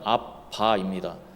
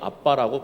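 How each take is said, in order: First: The word is said slowly. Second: The word is said quickly. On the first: "천천히 발음하면" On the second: "빠르게"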